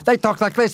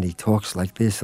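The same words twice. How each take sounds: First: Much higher, silky mock announcer voice; smooth radio announcer. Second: Said in the usual way. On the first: The guest mocking a smooth public radio announcer's voice. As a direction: glide it out like a soothing public radio host. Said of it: "A lot of radio, they talk like this".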